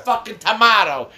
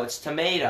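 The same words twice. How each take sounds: First: Tomato said tomahto, with an ah, loud and high. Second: Tomato said tomayto, with an ay. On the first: Dad insisting on his way, loud tomahto. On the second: Son correcting his dad, tomayto with ay. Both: Shown as a demonstration. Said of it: "No one fucking says tomato".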